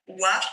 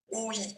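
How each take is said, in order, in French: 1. Les lettres forment une seule syllabe, wa. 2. Le o et le i se prononcent séparément. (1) "on ne dit pas wa" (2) "on dit oi"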